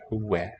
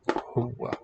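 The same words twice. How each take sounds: First: The vowel is said light and front. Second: The vowel is said dark and back. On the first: The speaker calls it wrong. "not huwa" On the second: The speaker calls it right. "Note that it's a dark ah"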